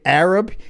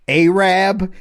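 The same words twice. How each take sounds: First: The first vowel is a short a sound. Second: The first vowel is a long ay sound. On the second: "pronounces the A with the hard A"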